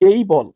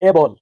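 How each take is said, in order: First: The first vowel glides from e to ee. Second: The first vowel is a plain, steady e. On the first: The speaker calls it right. "এর সঠিক উচ্চারণ হবে এই বল।" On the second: The speaker calls it wrong. "ভুল, ভুল করেছি।"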